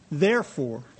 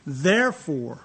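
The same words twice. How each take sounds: First: "Therefore" said low and heavy, falling to a stop; weighty Therefore. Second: "Therefore" slow and heavy with a falling tune; weighty Therefore. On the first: Preacher repeating the word so the congregation listens up. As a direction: land "Therefore" like a summons. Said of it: "Hey, I get your attention on this one?". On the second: Preacher stressing the verse's first word to grab attention. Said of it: "and that's like, Hey, I get your attention". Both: Shown as a demonstration.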